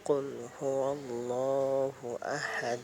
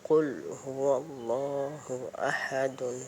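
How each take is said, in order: First: The last word ends on a bare 'd' sound. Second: The last word ends with a full '-dun' sound. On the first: The reader stops and takes a breath here. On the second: The reading carries on without stopping.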